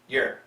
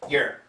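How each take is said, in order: First: The word is said quickly as one short syllable. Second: The word is said quickly as one short syllable.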